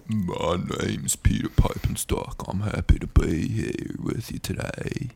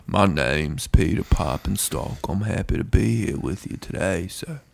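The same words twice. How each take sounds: First: Breathy dad impression; imitating dad. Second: Dad voice. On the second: Retold or imitated. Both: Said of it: "My dad".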